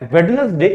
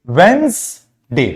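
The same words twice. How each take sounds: First: "Wednesday" as "wed-nes-day"; wrong reading with D. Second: "Wednesday" slowly as "wens... day"; silent D, slowed down. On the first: Teacher rejects the mistake, "wed-nes-day" for "Wednesday". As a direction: sound the first D in "Wednesday", three syllables. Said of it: "but it's not Wednesday". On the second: Teacher corrects slowly, "wens-day" for "Wednesday". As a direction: draw out "Wednesday" in two parts, no first D. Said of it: "D is silent there". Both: Shown as a demonstration.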